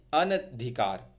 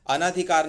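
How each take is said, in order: First: अनधिकार as an-adhikaar, short a after n; lower, अनधिकार split an, dhikaar with no long naa; correct short vowel. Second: ANADHIKAR said as a-naa-dhi-kaar; wrong long vowel. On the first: Teacher correcting students, अनधिकार with short na. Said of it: "अना नहीं, अनधिकार". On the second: Teacher showing students the error, अनाधिकार with long naa. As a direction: say अनाधिकार with an extra long aa after n. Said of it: "अनाधिकार नहीं". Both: Shown as a demonstration.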